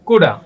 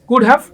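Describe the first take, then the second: First: The have is reduced to a short uh sound. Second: Both words are said fully and separately.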